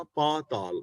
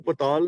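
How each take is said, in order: First: ਪਾਤਾਲ with a long aa after p, paa-taal; correct pronunciation. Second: ਪਤਾਲ with a short first a, as the mistake; ਪਤਾਲ said quickly as pa-taal, the wrong way; wrong reading shown. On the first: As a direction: stretch the first vowel in ਪਾਤਾਲ. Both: Shown as a demonstration. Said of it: "ਇਹਨੂੰ ਪਤਾਲ ਨਹੀਂ ਪੜ੍ਹਨਾ".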